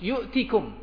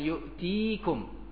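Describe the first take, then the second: First: The vowel after the t is short. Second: The vowel after the t is long. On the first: The speaker calls it right. "Ya-nya dihapus" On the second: The speaker calls it wrong. "Bukan yu'tikum"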